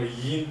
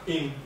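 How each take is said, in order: First: イン with a y glide, like yin; low イン opened on a y sound; Okinawan yi sound. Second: イン with no glide before the vowel; イン as the dog word; Okinawan plain i. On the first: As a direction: say イン as "yin", for bond. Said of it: "縁結びの縁は、". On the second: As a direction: say イン straight on the i, for dog. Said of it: "この犬は、". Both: Shown as a demonstration.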